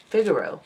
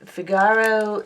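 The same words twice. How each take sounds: First: Figaro with stress on the first syllable, FIG-aro; corrected Figaro. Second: Figaro said fig-AR-o, stress on the middle syllable; wrong stress on Figaro. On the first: Shown as a demonstration. Correcting her own word Figaro, stressed FIG-aro. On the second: Real, not acted. Reading the bead list aloud, Figaro with stress on AR. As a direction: misplace the stress in Figaro onto AR. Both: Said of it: "I put the wrong emphasis on the wrong syllable".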